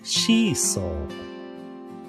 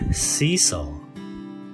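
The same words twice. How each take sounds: First: It is said as a Japanese katakana loanword. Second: It is said with an English pronunciation. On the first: "日本語を言うので" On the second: "比べると発音が違いますよね"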